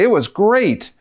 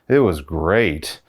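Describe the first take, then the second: First: It sounds cheerful and sincere. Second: It sounds flat and unconvincing. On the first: The day really was good. "okay, you had a really good day" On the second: The day was not really good. "I'm picking up on the way you said it was great"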